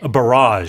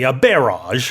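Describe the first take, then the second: First: North American style, stress on the second syllable. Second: British style, stress on the first syllable.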